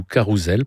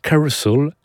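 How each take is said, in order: First: "Carousel" said the French way, "ka-rou-zel"; French pronunciation. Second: "Carousel" said the English way, middle vowel reduced; English pronunciation. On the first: Presenter giving the title in French, French pronunciation of "Carousel". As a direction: pronounce "Carousel" in French, with ou and a z sound. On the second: Presenter announcing the Broadway show's title, English pronunciation of "Carousel". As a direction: say "Carousel" as an American title, higher. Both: Shown as a demonstration. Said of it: "prononcé à la française".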